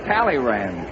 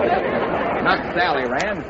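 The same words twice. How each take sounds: First: "Talleyrand" pitched lower with a falling end; stress on Talleyrand. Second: "Sally Rand" drawn out slowly; stress on Sally. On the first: Correcting the name after Sally Rand, "Talleyrand" firm and falling. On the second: Correcting a fan dancer mix-up, "Sally Rand" stretched. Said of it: "a fan dancer?". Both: Acted.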